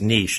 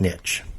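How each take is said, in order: First: The word sounds like 'neesh'. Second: The word sounds like 'nitch'. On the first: The speaker calls it right. "Think of it spelled N E E S H. it's pronounced niche" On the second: The speaker calls it wrong. "not niche"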